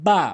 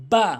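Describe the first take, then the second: First: বা said as an everyday Bengali ba; casual বা without careful lip closure; wrong pronunciation. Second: বা from the moist part of both lips; a careful, isolated বা; correct pronunciation. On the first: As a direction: say বা loosely, as the faulty example. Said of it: "ভুল উচ্চারণ". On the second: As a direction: press the lips together for বা. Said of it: "মিলিত করে বা বলতে হবে". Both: Shown as a demonstration.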